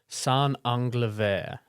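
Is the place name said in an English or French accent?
French. The name is said with a French accent. "is the French pronunciation"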